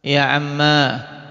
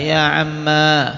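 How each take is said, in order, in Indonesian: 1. Kata itu berakhir dengan vokal a panjang. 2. Kata itu berakhir dengan vokal a panjang.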